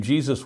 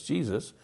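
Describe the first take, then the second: First: Jesus said the Spanish way, hay-SOOS; Spanish pronunciation. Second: Said in the usual way. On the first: Shown as a demonstration. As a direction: say Jesus with an h sound, stress on the end. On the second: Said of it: "how we pronounce Joshua in English".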